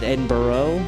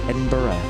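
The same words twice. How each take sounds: First: The final syllable is said fully and heavily. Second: The final syllable is said softly and reduced. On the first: The speaker calls it wrong. "which is too hard on the burrow" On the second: The speaker calls it right. "How's that?"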